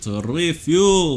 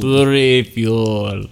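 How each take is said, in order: First: Slow mock Russian vampire; high, slow mock Russian accent. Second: Slow drawn-out Russian vampire; Russian accent. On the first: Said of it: "Russian accent". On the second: Pretend. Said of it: "my Russian accent".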